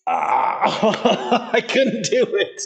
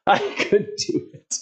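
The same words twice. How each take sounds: First: High laughing, slow. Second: Breathless, slow and whispery; out of breath. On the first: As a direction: laugh through the words. Laughing at own failure. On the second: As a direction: gasp it out spent. Repeated breathlessly after laugh. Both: Real, not acted.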